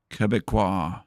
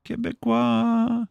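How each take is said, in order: First: Said in the usual way. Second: Quebecois drawn out high and slow, French style; French pronunciation. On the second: Shown as a demonstration. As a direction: say Quebecois like a mock French speaker, much higher and slowly.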